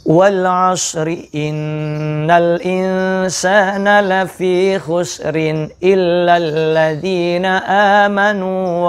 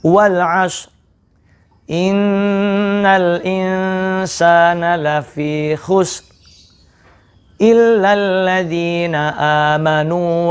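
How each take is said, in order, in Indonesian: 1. Bacaannya terus tanpa berhenti di antara ayat. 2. Berhenti sebentar di akhir setiap ayat. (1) "boleh dibaca sekali nafas" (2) "maka kita baca berhenti"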